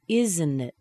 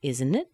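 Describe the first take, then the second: First: "Isn't it" falling at the end; falling intonation. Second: "Isn't it" linked, rising at the end; rising intonation. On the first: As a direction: stress "Isn't", drop on "it". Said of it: "let the intonation fall down". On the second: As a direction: let "it" swing up as a question. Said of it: "The T disappears because of the vowel". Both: Shown as a demonstration.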